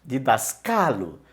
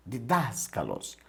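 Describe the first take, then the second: First: "Didascalo" slow, stressed on the third syllable "ca"; tônica em CA. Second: "Didáscalos" slow, stressed on the second syllable "das"; tônica em DAS. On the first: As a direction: move the weight onto a long "ca" in "Didascalo". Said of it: "e foi para o cá". ("Didascalo" devagar, com a tônica no "ca") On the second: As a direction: lean on "das" in "Didáscalos", let the ending fall. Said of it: "A sílaba tônica é das". ("Didáscalos" devagar, com a tônica no "das") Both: Shown as a demonstration.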